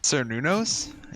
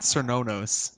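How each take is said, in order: First: The middle syllable sounds like 'new'. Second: The middle syllable sounds like 'no'. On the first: The speaker calls it right. "It's like new" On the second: The speaker calls it wrong. "not Cernonos"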